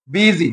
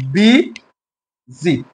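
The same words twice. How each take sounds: First: Said in the usual way. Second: "বি" and "জি" separated by a long pause; syllable by syllable. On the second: Shown as a demonstration. Teacher showing a two-syllable word, "বি জি" split apart. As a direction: break it as "বি", pause, "জি". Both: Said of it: "দুই উচ্চারণ বিশিষ্ট শব্দগুলোকে".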